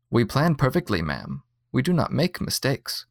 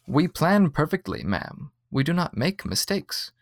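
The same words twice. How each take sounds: First: A hint of a polite automated voice; machine voice, lightly done. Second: A hint of a soothing robot, pitched a bit higher; calm the customer like a slightly robotic clerk; soothing android voice, lightly done. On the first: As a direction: read it like a friendly program, only lightly voiced. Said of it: "said the voice". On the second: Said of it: "a voice that was supposed to be soothing". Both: A narrator's reading.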